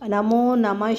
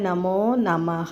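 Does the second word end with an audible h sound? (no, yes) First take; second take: no; yes. First: The second word ends without an h sound. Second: The second word ends with an audible h sound. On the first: "நமோ நம ஸ்ரீ அப்படி சொல்லலாம்" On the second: "நமோ நமஹ அப்படின்னு break எடுத்துகிட்டு"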